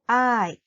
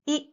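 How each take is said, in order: First: A gliding 'eye' vowel as in kind. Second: A short pure 'ee' vowel. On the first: The speaker calls it wrong. "not I" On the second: The speaker calls it right. "like I in the word king"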